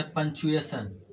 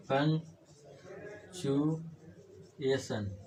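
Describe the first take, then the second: First: Said in the usual way. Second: Very slow and softer, long gaps between syllables. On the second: Shown as a demonstration. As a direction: break पंक्चुएशन into drawn-out pieces, as if writing it. Teacher breaks word up while writing.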